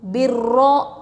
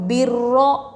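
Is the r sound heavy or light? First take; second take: heavy; heavy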